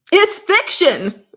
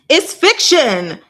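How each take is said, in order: First: Very high, loud, slow "It's fiction"; emphatic exasperation. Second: Slow, loud, high it's fiction; emphatic insistence. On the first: Repeating herself at the censors, even more exasperated. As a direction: hit "It's" high and stretch the line. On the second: Arguing with the censors, slow and emphatic. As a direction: lean hard on "It's", drawn out. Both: Real, not acted.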